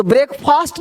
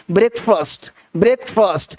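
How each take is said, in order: First: "ब्रेकफास्ट" with long aa in the second syllable; wrong pronunciation. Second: "ब्रेकफास्ट" with short uh in the second syllable; correct pronunciation. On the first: Teacher shows the common mistake, "ब्रेकफास्ट" with long aa. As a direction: say "ब्रेकफास्ट" like "brek-faast". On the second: Teacher models the word, "ब्रेकफास्ट" with short unstressed "fust". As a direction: say "ब्रेकफास्ट" like "brek-fust", falling. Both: Shown as a demonstration. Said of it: "तो ब्रेकफास्ट नहीं".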